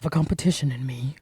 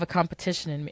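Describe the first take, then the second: First: It is said in a put-on character voice. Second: It is said in the speaker's ordinary voice.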